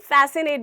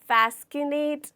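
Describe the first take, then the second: First: No k sound is pronounced after the s. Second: A k sound is pronounced after the s. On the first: The speaker calls it right. "इसे हम फैसिनेट बोलते हैं" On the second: The speaker calls it wrong. "ना कि फैस्किनेट"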